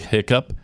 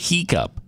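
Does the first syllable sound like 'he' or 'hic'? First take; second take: hic; he. First: The first syllable is a short 'hic'. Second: The first syllable sounds like 'he'. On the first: "when she'd say hiccup" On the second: "she'd say he-cup"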